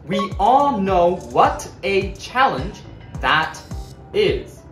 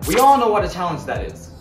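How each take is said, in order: First: The words are said separately without linking. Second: The words are linked together smoothly.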